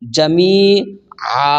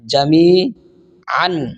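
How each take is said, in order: First: The word ends with a long a vowel. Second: The word ends with an n sound. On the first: The reader stops at this word. "অক্ফ করলে দুই জবরের মধ্যে এক আলিফ টানতে হবে।" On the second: The reader continues without stopping. "উচ্চারণ করতে হয়"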